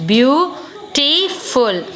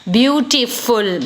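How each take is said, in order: First: "beautiful" drawn out very slowly, beau-ti-ful; slow syllable by syllable. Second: Said in the usual way. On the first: Shown as a demonstration. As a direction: stretch out "beautiful" so each syllable is heard.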